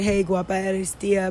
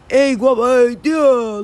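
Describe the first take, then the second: First: Every word is said, quickly and clearly. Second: Most sounds are dropped, leaving clipped fragments. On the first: "did you hear like the way I said it? ... they would say it kind of fast" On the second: "Like they cut out almost all the words"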